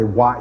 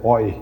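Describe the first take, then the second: First: The vowel sounds like 'wa'. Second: The vowel sounds like 'oi'. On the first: This is not the Old French pronunciation. The speaker calls it wrong. "In Old French, you don't say what" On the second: This is the Old French pronunciation. The speaker calls it right. "you say oi"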